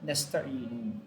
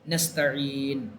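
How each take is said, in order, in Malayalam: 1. വാക്ക് ഹ്രസ്വമായ അവസാന സ്വരാക്ഷരത്തിലാണ് അവസാനിക്കുന്നത്. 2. വാക്ക് വ്യഞ്ജനത്തിലാണ് അവസാനിക്കുന്നത്, സ്വരം ഒഴിവായിരിക്കുന്നു.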